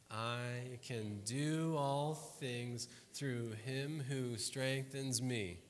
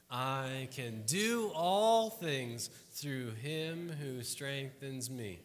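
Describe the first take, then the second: First: Slow, measured recitation of the verse; slow group recitation. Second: Slow and louder, everyone together; louder group recitation. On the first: Pastor leads congregation in reciting the verse, slow and measured. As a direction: lead the room through it word by word. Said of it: "say it with me". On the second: Pastor asks the room to try the verse again, slow and louder. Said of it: "let's try it again". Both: Shown as a demonstration.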